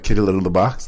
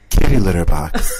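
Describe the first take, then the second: First: It is mumbled indistinctly. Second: It is said clearly and deliberately.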